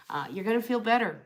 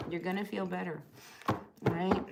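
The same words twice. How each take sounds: First: Said in the usual way. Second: Soft reassurance. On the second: Real, not acted. Repeated softly to reassure Pamela.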